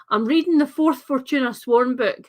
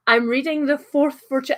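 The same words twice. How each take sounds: First: Softened Scottish accent for the internet; carefully tone down the Scottish accent; code-switched Scottish accent. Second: Scottish accent. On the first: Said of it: "a less sort of, um, code switch for the internet, uh, Scottish accent". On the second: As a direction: own Scottish accent, unsoftened. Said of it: "That's hard in a Scottish accent". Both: Shown as a demonstration.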